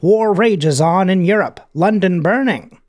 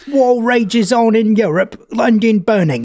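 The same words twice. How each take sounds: First: It is spoken in the speaker's ordinary voice. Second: It is spoken in a put-on British accent.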